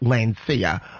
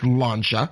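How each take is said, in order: First: The name is said with an English pronunciation. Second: The name is said with an Italian pronunciation. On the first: "In English, it's pronounced Lancia" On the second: "I will pronounce it the Italian way. It's Lancia"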